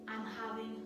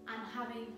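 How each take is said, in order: Both takes have the same delivery.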